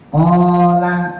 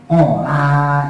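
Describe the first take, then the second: First: The first syllable is long, the second short. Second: The first syllable is short, the second long. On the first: The speaker calls it right. "konya yang panjang, lamnya yang pendek" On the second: The speaker calls it wrong. "konya pendek, lamnya panjang"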